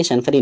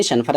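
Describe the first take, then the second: First: شنفری said with a long final ee, Shanfari; the mistaken شنفری, final vowel ee; wrong pronunciation. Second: شنفرہ said ending in a short a, Shanfara; the correct شنفرہ, final short a; correct pronunciation. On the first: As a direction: end شنفری on a long ee sound. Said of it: "یہ غلط pronunciation". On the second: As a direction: end شنفرہ on a short open a. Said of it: "اس کا صحیح pronunciation". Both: Shown as a demonstration.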